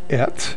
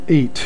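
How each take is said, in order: First: The vowel is a short 'e' sound. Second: The vowel is a long 'ay' sound. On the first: This is the form joined to the next word. "right now it's et because it has a segol" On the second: This is the dictionary form, without the joining mark. "before the makef was there ... this word would have been eight"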